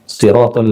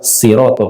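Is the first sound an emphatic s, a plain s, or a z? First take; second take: emphatic s; plain s. First: The word begins with a heavy, emphatic s sound. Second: The word begins with a light, plain s sound.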